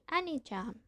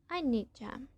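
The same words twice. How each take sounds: No difference in how they are said.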